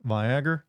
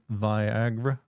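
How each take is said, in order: First: "Viagra" said vy-AG-er, rising; hard-R pronunciation. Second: "Viagra" drawn out as vy-AG-ra, rising; standard pronunciation. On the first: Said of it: "That one". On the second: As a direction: try "Viagra" very slowly with long i. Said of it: "the way you say Viagra". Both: Shown as a demonstration.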